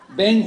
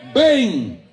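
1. La palabra se dice de forma ligera y casual. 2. La palabra se dice con un énfasis fuerte y marcado. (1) "No es un ven como que está llamando a Joaquín" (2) "es un ven con B mayúscula. Es un ven con énfasis"

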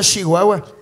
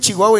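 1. Se dice con acento del norte de Chihuahua. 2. Se dice con acento de la Ciudad de México. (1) "y no Chihuahua" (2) "dijiste Chihuahua"

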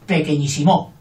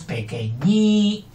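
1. La tónica está en la última sílaba, mo. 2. La tónica está en la tercera sílaba, ñí. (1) "Y con aguda" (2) "Pero no, es pequeñísimo"

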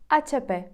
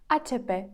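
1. Вимовляється з іспанськими звуками. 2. Вимовляється з іспанськими звуками.

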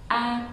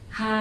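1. Âm tiết bắt đầu trực tiếp bằng nguyên âm. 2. Âm tiết bắt đầu bằng âm h nghe rõ. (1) "trong tiếng Tây Ban Nha sẽ đọc là a" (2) "đấy là mình sẽ đọc theo kiểu Việt Nam nhé"

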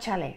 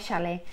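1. A palavra é dita com um som inicial de estilo espanhol. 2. A palavra é dita com um som inicial de estilo brasileiro. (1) "a maioria dos brasileiros não fala chalé" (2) "fala chalé"

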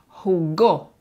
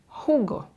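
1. El acento está en la última sílaba. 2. El acento está en la primera sílaba. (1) "Ahí tienes que poner fuerza" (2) "Si no pones ese énfasis, la palabra suena jugo"

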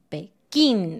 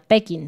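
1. El acento está en la última sílaba. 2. El acento está en la primera sílaba. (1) "este también lleva una tilde" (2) "Nosotros acentuamos la sílaba una antes del final"

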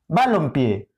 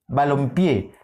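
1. La tónica está en la primera sílaba. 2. La tónica está en la última sílaba.

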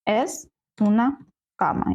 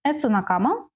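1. Це сказано з розповідною інтонацією. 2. Це сказано з питальною інтонацією.

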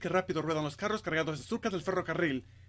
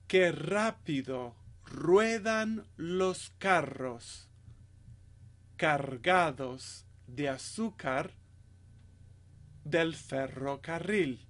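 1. Se dice lo más rápido posible. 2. Se dice a un ritmo lento y cuidadoso.

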